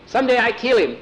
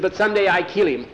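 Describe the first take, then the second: First: Much higher, louder outburst; heated vengeful vow. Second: Higher, quick vow of revenge; acted threat, not yet at full pitch; vengeful vow. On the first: Captive boy swearing revenge on Jose, heated vengeful vow. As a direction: drive the vow home, pitch leaping up. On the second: Captive boy about Jose, vengeful vow. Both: A narrator's reading.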